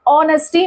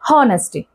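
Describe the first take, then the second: First: The word begins with a vowel sound. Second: The word begins with an h sound. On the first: The speaker calls it right. "एच को हम silent रखेंगे यहाँ पे, क्योंकि हम pronounce कैसे करते हैं? ऑनेस्टी" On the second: The speaker calls it wrong. "ना कि"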